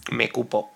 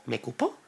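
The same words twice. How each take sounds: First: Said in the usual way. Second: "me cupo" en voz baja, subiendo al final como pregunta; pregunta dudosa. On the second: Real, not acted. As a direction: duda de "cupo" con entonación ascendente. Duda de la forma verbal. ("¿me cupo?" bajito e interrogativo)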